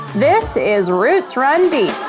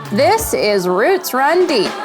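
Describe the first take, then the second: No difference in how they are said.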